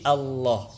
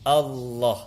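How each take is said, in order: No difference in how they are said.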